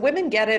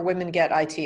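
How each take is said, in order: First: The last part is said as the word it. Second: The last part is spelled out as letters. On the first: "Is it Women Get It" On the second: "or Women Get I T?"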